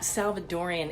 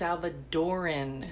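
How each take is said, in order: First: The word has five syllables, ending in -ian. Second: The word has four syllables, ending in -an. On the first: The speaker calls it wrong. "It's not Salvadorian" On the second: The speaker calls it right. "It is pronounced Salvadoran"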